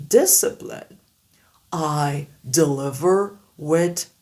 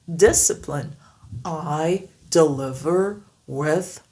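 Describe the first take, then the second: The two takes are said the same way.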